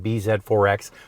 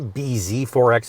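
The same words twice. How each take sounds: First: The name is said the non-American way. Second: The name is said the American way.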